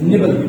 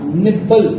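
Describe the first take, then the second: First: The middle b sound is short, single. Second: The middle b sound is held long, doubled. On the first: The speaker calls it right. "Actually this is" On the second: The speaker calls it wrong. "This is not"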